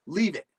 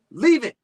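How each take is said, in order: First: Said in the usual way. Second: Loud, high "Leave it!" shout; louder, higher "Leave it!" yelled at the pulling dogs; firm command. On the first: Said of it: "Stuart said again". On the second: Acted. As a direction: bark the order at the dogs. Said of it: "He braced himself and said".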